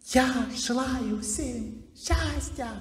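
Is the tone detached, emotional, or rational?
emotional. It is said with strong emotional feeling. The words come from emotion. "Вот как выглядит звук эмоций?"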